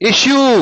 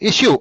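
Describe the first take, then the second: First: The word is drawn out slowly. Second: The word is said short and crisp. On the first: The speaker calls it wrong. "Issue కాదు" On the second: The speaker calls it right. "Issue అంతే"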